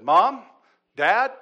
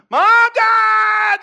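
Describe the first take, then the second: First: High, loud child's call, imitated; calling for parents. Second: Full-force high scream, imitating a child. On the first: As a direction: call out for Mom and Dad, each word separate. Retold son calls for parents. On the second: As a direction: scream for your parents in panic. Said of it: "I'm, like, screaming".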